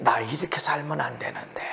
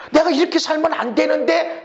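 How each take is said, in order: First: Much softer, whispered self-reproach. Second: Said in the usual way. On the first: Retold or imitated. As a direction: breathe it like a private confession. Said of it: "그래야 우리 주변의 사람들이". (속삭이는 혼잣말) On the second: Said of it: "라고 우리 얼굴에 거울을 보고".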